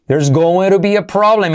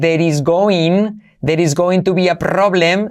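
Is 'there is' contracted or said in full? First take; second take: contracted; full. First: The words 'there is' are contracted to one syllable. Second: The words 'there is' are said in full. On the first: The speaker calls it right. "puedes contraer there is como there's" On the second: The speaker calls it wrong. "No vas a decir there is going to be a problem"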